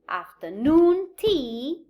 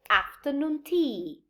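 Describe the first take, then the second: First: The main stress falls on noon in afternoon. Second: The main stress falls on af in afternoon. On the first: The speaker calls it wrong. "So I do not say afternoon tea" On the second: The speaker calls it right. "this secondary stress becomes a primary stress"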